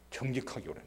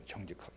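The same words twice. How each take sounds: First: Said in the usual way. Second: 정직하게 repeated much softer, falling; quiet echo. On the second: Shown as a demonstration. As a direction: drop to a near-murmur on 정직하게. (정직하게를 조용히 되뇌듯)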